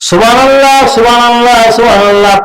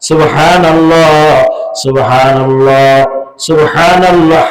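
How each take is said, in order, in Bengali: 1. 'h' ধ্বনিটি হালকাভাবে টেনে বাদ দেওয়া হয়। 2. 'h' ধ্বনিটি স্পষ্ট ও শোনা যায় এমনভাবে উচ্চারিত হয়। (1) "পড়লে কোনো লাভ হবে না" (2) "হা হা হা উচ্চারণ করে পড়তে হবে"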